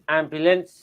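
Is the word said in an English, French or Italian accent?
Italian. It is said in an Italian accent.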